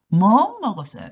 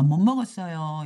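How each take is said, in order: First: The final consonant of 못 keeps a t sound. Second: The final consonant of 못 becomes an n sound. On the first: The speaker calls it wrong. "이렇게 여러분 하시는데 그렇게 하는 것보다" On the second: The speaker calls it right. "미음 때문에 앞에 있는 디귿이 니은 발음이 되거든요"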